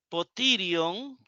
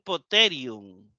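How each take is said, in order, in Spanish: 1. El segundo sonido vocálico suena como 'ee'. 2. El segundo sonido vocálico suena como 'e'. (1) "como aquí donde dice Potirion" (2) "me gustaría pronunciarlo Poterion"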